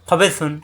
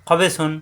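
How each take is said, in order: The two takes are said the same way.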